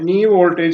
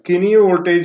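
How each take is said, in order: First: The word starts with an n sound. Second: The word starts with a sounded k. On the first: The speaker calls it right. "നീ voltage എന്നേ പറയാൻ പാടുള്ളൂ" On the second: The speaker calls it wrong. "കിനി voltage എന്ന് പറയരുത് നിങ്ങൾ"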